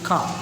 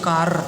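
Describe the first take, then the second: First: The final r sound is silent. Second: The final r sound is pronounced. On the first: The speaker calls it right. "खा इतना ही बोलते हैं, र को silent हो जाता है" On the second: The speaker calls it wrong. "कार ऐसा नहीं बोल सकते"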